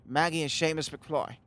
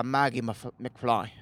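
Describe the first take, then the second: First: Badly faked Irish accent; half-hearted mock Irish accent; awful Irish accent. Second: Said in the usual way. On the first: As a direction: put on a clumsy Irish lilt. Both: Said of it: "That's an awful Irish accent".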